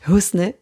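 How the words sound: The name is said with a Turkish pronunciation. This is how it is said in Turkey. "en Turquie, heu, j'ai déjà entendu Husne"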